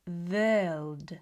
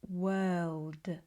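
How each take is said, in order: First: The first sound is buzzy, like a V. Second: The first sound is a relaxed, rounded W. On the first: The speaker calls it wrong. "it's going to sound more like V" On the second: The speaker calls it right. "the more relaxed world"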